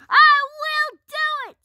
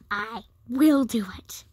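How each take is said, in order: First: It is said loudest, almost shouted. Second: It is said louder than the first time.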